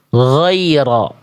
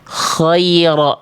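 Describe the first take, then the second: First: The first sound is a smooth, voiced throaty gh. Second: The first sound is airy and voiceless, like kh. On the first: The speaker calls it right. "yang tepat adalah yang yang D" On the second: The speaker calls it wrong. "dia keluar nafas"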